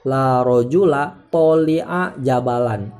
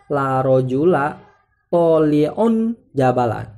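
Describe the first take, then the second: First: The word tali' ends in a short a. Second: The word tali' ends in un. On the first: The adjective is treated as indeclinable. The speaker calls it wrong. "tidak boleh kita ucapkan" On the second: The adjective is in the nominative case. The speaker calls it right. "baca rofa"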